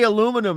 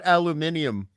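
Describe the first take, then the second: First: The word is said with four syllables. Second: The word is said with five syllables. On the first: This is how the other person says it. "you say aluminum" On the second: This is how people here say it. "aluminium like we do here"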